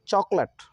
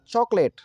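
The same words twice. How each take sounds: First: चॉकलेट as chok-lut, short vowel; weak lut ending चॉकलेट; correct chocolate pronunciation. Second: चॉकलेट as chok-LATE, higher; long late ending चॉकलेट; mispronounced chocolate. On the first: Teacher modelling the correct reading, चॉकलेट as chok-lut. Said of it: "चॉकलेट नहीं पढ़ेंगे बल्कि". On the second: Teacher showing the wrong reading, चॉकलेट as chok-late. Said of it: "तो चॉकलेट नहीं पढ़ेंगे". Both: Shown as a demonstration.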